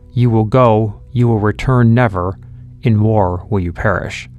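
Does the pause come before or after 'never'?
after. The pause comes after the word 'never'.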